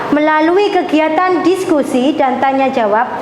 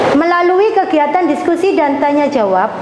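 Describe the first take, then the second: The two takes are said the same way.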